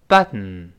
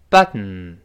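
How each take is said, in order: Both takes have the same delivery.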